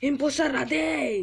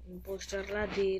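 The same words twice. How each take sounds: First: Loud, high-pitched cry to the game; high, punchy plea at full voice; shouted demand. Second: Said in the usual way. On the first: Pretend. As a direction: call it out loudly, begging for the role. Begs game for impostor role.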